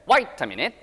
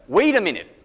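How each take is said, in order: First: Australian "Wait" said as "wite"; rising Aussie pronunciation; Australian accent. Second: Said in the usual way. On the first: Shown as a demonstration. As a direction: say "Wait" with an "ai" vowel, Australian style. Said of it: "아이처럼 발음하시면 호주식이에요". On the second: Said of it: "이 웨이 발음을".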